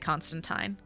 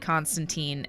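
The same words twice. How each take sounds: First: It is said with a British pronunciation. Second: It is said with an American pronunciation. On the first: "British say Constantine" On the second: "Americans say Constantine"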